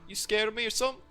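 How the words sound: It is said in a put-on hitchhiker voice.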